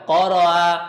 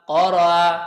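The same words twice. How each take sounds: Both takes have the same delivery.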